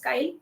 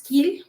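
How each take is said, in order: First: The vowel sounds like 'eye', rhyming with 'mile'. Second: The vowel sounds like 'ee', rhyming with 'feel'. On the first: The speaker calls it right. "the correct pronunciation is Kyle" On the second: The speaker calls it wrong. "some some people call it as Keel"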